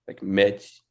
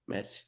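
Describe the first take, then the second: First: The first consonant is a plain J sound. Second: The first consonant has an S-like hiss. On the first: A masculine speaker would say it this way. "masculine speakers will say it more like" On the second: A feminine speaker would say it this way. "feminine speakers will almost have like an S sounding to it"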